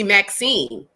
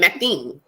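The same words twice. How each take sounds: First: The name is said plainly, without a lisp. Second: The name is said with a lisp. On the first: This is the intended name. "my name was supposed to be Maxine" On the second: This is how the mother said it. "she pronounced it Maxine"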